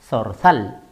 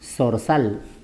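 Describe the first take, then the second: First: The z sounds are said like 'th'. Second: The z sounds are said like 's'. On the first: This is the general Spanish pronunciation. "esta es la manera de pronunciar, pero en el español general" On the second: This is how people in the speaker's region say it. "Así como si fuera una S"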